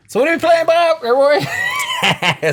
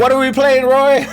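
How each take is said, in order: First: High, loud catchphrase call; fighting game announcer. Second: High loud announcer call-out; fighting game announcer. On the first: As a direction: shout it like a match host. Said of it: "I messed up my own catchphrase". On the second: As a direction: hype it like a match host. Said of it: "Can we do a take two?". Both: Acted.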